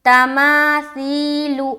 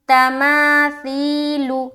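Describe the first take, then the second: The two takes are said the same way.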